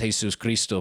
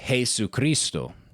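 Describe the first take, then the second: First: Two separate words, with the s sounded. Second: One joined word, without the middle s. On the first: The speaker calls it wrong. "maybe somebody says Jesus Cristo" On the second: The speaker calls it right. "They they put the two words together"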